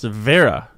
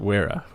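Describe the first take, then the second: First: The word begins with a V sound. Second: The word begins with a W sound. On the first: The speaker calls it right. "It's pronounced Vera" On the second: The speaker calls it wrong. "not Wera"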